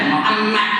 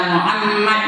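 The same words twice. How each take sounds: The two takes are said the same way.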